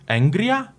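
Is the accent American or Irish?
Irish. It is said with an Irish or Scottish accent.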